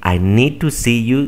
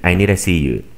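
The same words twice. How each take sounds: First: The word 'to' is pronounced fully and clearly. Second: The word 'to' is reduced, sounding like 'needa'. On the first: "En lugar de decir" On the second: "dicen ... nida"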